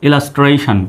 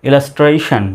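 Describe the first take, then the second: The two takes are said the same way.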